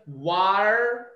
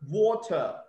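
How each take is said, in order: First: The middle t is softened, as in American speech. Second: The middle t is pronounced as a clear t. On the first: "And in American accent" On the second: "There's T actually"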